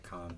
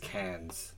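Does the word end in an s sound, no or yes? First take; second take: no; yes. First: The word ends without an s sound. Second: The word ends with an s sound. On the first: The speaker calls it right. "nobody can say con properly" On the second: The speaker calls it wrong. "Everybody says cans"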